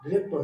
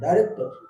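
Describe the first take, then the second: First: The first syllable sounds like 'dee'. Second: The first syllable sounds like 'dye'. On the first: The speaker calls it wrong. "ডিরেক্টর না" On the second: The speaker calls it right.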